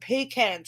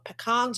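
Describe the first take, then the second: First: It is said in a non-American pronunciation. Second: It is said in an American pronunciation. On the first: "I call them pecans" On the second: "or pecans if you're in America"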